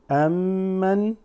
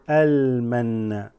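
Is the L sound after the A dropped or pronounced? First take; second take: Dropped; Pronounced. First: The L is dropped and the M is doubled. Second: The L is clearly pronounced before the M. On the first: The speaker calls it wrong. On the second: The speaker calls it right.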